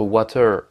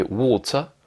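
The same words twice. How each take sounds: First: Water with an A, R sounded, drawn out; wrong pronunciation. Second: Water slow, long O, silent R; better British pronunciation. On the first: Teacher comparing for learners, bad water with A and sounded R. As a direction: mispronounce water slowly, voicing its final R. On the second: Teacher comparing for learners, good water with long O and mute R. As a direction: stretch the O in water, leave the R mute. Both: Shown as a demonstration. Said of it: "une prononciation qui est bien meilleure".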